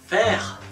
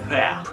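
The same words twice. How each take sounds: First: The word begins with a clear f sound. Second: The word begins with a breathy h-like sound. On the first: "des mots comme faire" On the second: "deviennent faire"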